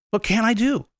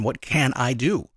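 First: Higher, lifted question on "do"; eager ask. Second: Slow, searching question; slow pondering. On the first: Shown as a demonstration. Speaker restating the listener's question, higher and eager. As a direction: ask it again, brighter and higher. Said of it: "ask the question". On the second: Retold or imitated. The listener finally asking the question, slow and pondering. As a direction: ask it slowly, thinking it over. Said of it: "you're gonna ask the question".

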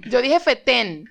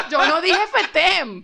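First: "fetén" ending on a clear open-lipped n; slow, careful "fetén" with n, never m; final N. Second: "fetén" with lips shut on m, fetem; higher, slow, laughing "fetén" turned into fetem; final M. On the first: Speaker correcting the co-host, "fetén" ending in N. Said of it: "es N al final". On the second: Speaker denying the mistake, "fetén" ending in M. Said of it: "Cuando dices la M". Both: Shown as a demonstration.

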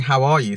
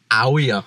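First: Said in the usual way. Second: "How are ya" slurred together as one word, the h dropped; run into one word. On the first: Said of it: "instead of saying, "How are you?". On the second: Shown as a demonstration. Showing how proper Leicester people greet, all run into one word. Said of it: "Like, one word".

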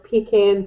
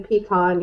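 First: "pecan" as PEE-can; second syllable of "pecan" with a flat A as in can; short A pronunciation. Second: "pecan" as pee-KAHN; second syllable of "pecan" with an open AH; broad A pronunciation. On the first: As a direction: say "pecan" ending like tin can. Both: Shown as a demonstration. Contrasting two ways to say it.

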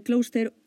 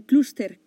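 First: "cluster" with an O sound, KLOS-ter; alternate pronunciation. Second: "cluster" with a clear U, KLOOS-ter; U pronunciation. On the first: Podcaster trying out how the term is said, "cluster" as KLOS-ter. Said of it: "¿cómo se pronuncia?". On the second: Podcaster trying out how the term is said, "cluster" as KLOOS-ter. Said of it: "Con acento en la U". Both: Shown as a demonstration.

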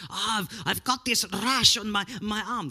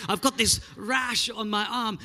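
First: Put-on a Greek auntie line that drifts into a Russian accent, pitched a bit high; accidental Russian accent. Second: Put-on Greek accent. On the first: Preacher voices the Greek auntie's complaint, slipping into Russian accent. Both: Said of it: "That was more Russian than Greek".

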